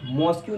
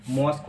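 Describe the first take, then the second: First: मॉस्क्यू ending in 'kyoo'; wrong pronunciation. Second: मॉस्क as one syllable ending in 'k'; taught pronunciation. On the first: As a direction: say मॉस्क्यू as two syllables, 'mos-kyoo'. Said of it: "मॉस्क्यू नहीं होती". (मॉस्क्यू, अंत में 'क्यू' बोलकर) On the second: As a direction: say मॉस्क as 'mosk', nothing after the k. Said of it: "बल्कि मॉस्क होती है". (मॉस्क, अंत में सिर्फ़ 'क') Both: Shown as a demonstration.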